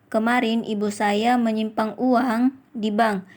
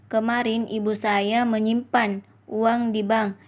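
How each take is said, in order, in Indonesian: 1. Tekanan ada pada uang. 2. Tekanan ada pada menyimpan. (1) "Kalimat kelima mendapatkan tekanan pada kata uang" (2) "Kalimat keempat mendapatkan tekanan pada kata menyimpan"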